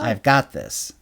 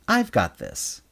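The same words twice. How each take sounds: First: The stress falls on the expected word. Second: The stress falls on an unexpected word.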